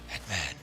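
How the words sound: It is said in a put-on Batman voice.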